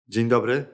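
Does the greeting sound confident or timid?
confident. The greeting sounds clear, open and confident. The speaker feels strong and ready for contact. The speaker calls it right. "wyprostuj się, podnieś głowę, rozluźnij barki. Jeszcze raz"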